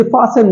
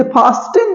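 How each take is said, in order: First: फासन with no T, "faa-sen"; silent T. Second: फास्टन with T sounded, "faas-ten"; wrong pronunciation. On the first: Teacher giving the correct form, silent T. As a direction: go straight from S to the vowel in फासन. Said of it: "इसे फासन बोला जाता है". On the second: Teacher showing the form to avoid, wrong pronunciation. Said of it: "इसे फास्टन नहीं बोला जाता". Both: Shown as a demonstration.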